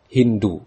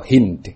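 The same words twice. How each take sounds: First: Hindu ending on an open u; more eloquent reading. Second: Hind stopped on the consonant; alternative reading. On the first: Teacher gives students the preferred form, Hindu with u ending. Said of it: "yang lebih fasih ungkapannya". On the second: Teacher gives students the other form, Hind without u. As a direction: say Hind without any vowel ending. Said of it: "atau Hind". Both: Shown as a demonstration.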